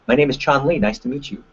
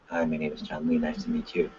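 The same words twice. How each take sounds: First: Bright, assertive handshake hello; strong confident introduction; confident greeting. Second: Much softer, lower, shrinking hello; a shy, beaten-down introduction; timid greeting. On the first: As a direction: greet them like you mean it. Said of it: "you've gotta be just as loud". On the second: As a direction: mumble it like you'd rather disappear. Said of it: "who just won?". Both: Shown as a demonstration.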